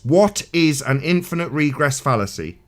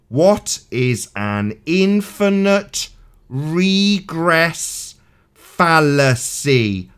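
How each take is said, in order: First: It is said at a normal speed. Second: It is said very slowly.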